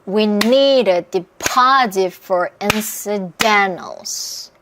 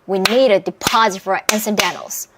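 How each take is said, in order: First: The sentence is said very slowly. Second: The sentence is said more quickly. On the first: "아주 천천히 저와 함께 박수를 치면서" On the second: "점점 빠르게"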